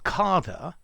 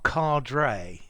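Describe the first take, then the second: First: It is said like the word Carter. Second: It is said the way Americans say it. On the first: Many British people say it this way. "I've heard a lot of British people say Carter" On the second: Americans say it this way. "the Americans say cadre"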